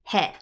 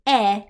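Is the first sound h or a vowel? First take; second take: h; vowel. First: It is said with an h sound. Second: It is said without an h sound. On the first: It is read as the plain character. The speaker calls it wrong. "not he" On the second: It is used as a particle. The speaker calls it right. "It's e"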